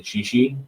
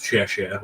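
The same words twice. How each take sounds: First: "xi xi" said with a plain English s, not the Mandarin sound; sloppy xi xi. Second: "xie xie" with the proper Mandarin xie sound. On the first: Friends' sloppy version of Mandarin thanks. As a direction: say "xi xi" the lazy friends' way. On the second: Showing the correct Mandarin thank you. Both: Shown as a demonstration. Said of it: "a very poor pronunciation of".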